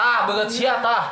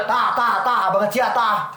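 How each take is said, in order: First: "Tah, banget sia, tah" in a light Sundanese lilt; lightly louder Sundanese demo; Sundanese intonation. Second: Louder "Tah, tah, tah, banget sia, tah" in a Sundanese lilt; louder playful Sundanese imitation; Sundanese intonation. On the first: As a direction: show how a Sundanese speaker drops "banget sia". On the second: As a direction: hit each "tah" like a Sundanese speaker. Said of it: "Gitu ya?". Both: Shown as a demonstration.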